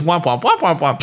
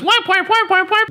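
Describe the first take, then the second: First: Said in the usual way. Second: High squeaky whap whap noises; high sound effect. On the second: Retold or imitated. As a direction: squeak out the whaps. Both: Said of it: "his punchline was".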